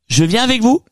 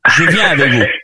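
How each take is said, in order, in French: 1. La phrase est dite avec une intonation du haut. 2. La phrase est dite avec une intonation du bas. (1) "l'intonation du haut" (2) "l'intonation du bas"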